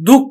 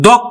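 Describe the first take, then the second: First: The first vowel is a closed 'o' sound. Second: The first vowel is an open 'aw' sound. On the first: The speaker calls it right. "কিন্তু দুঃখ হবে" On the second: The speaker calls it wrong. "দক্ষ না হয়ে"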